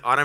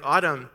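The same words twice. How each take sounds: First: "Autumn" with a rising tune; a questioning "Autumn," pitch lifting at the end; calling her name. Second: "Autumn" with a falling tune; a firm "Autumn," pitch dropping at the end; calling her name. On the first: Dad calls daughter again, name rising. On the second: Dad calls daughter to talk about what she did, falling. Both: Retold or imitated. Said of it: "I'm talking to her about".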